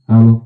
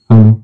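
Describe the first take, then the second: The two takes are said the same way.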